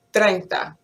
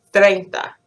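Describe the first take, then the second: First: Treinta with a tapped r and a pure "e"; Spanish treinta. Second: Treinta with an English "th" and a gliding "ei"; anglicized treinta. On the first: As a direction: say treinta cleanly, "tren-ta". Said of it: "the letter A is A". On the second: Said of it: "that sound of the vowel is important". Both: Shown as a demonstration.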